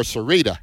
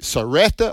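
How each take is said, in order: First: Sarita with a long "ee" in the middle; alternative name pronunciation. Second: Saretta with a short "eh" in the middle; name pronunciation option. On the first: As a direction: say Sarita, middle syllable like "ree". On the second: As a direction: say Saretta, middle syllable like "ret". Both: Shown as a demonstration. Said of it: "is it Saretta or Sarita".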